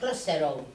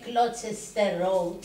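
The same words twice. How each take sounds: First: Some written sounds are dropped or reduced. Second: Every written letter is pronounced in full. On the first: This is how people actually say it. The speaker calls it right. "λένε Gloucester Road" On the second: This follows the written form. The speaker calls it wrong. "δεν λένε Gloucester Road"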